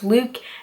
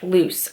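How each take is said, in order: First: The name ends with a k sound. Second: The name ends with an s sound. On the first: The speaker calls it right. "but it's pronounced Luke" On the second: The speaker calls it wrong. "not to say Luke's name like Luce"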